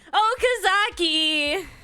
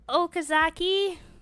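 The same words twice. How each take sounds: First: The name is called loudly. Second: The name is called quietly.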